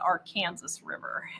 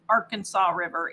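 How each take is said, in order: First: Arkansas is said the local Kansas way. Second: Arkansas is said like the state's name. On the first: The speaker calls it right. "it's the Arkansas River" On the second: The speaker calls it wrong. "it's not the Arkansas River"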